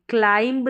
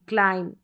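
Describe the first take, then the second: First: The word ends with an audible b sound. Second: The word ends on m with no b. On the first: The speaker calls it wrong. "क्लाइंब नहीं" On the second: The speaker calls it right. "बी का तो sound ही नहीं आएगा"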